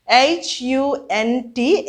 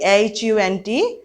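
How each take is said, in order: First: Each letter spelled out slowly and apart; slow spelling. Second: Said in the usual way. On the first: Shown as a demonstration. (धीरे-धीरे अक्षर बोलते हुए)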